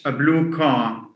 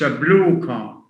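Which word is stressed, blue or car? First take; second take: car; blue. First: The stress falls on the noun. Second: The stress falls on the adjective. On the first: The speaker calls it right. "Stress falls on the on the second element" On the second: The speaker calls it wrong. "So we don't say that's a blue car"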